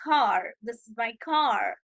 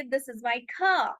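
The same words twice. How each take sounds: First: Slow American "car" with a full r; American accent. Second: Slow British "car", r dropped to "kah"; British accent. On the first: Teacher shows how Americans say car, American accent. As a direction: draw out "car" and sound the American r. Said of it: "American इसे कहते हैं". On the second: Teacher shows how the British say it, British accent. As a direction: model British English, long open vowel in "car". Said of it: "British इसे कहेंगे". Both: Shown as a demonstration.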